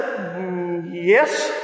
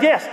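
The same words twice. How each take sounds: First: Low, drawn-out "Mm, yes" lifting at the end; hesitant yes. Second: Said in the usual way. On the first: Retold or imitated. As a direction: hum doubtfully, then venture a tentative yes. Unsure answer, knowing it was wrong.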